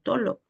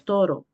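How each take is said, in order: First: The middle consonant is an l sound. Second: The middle consonant is an r sound.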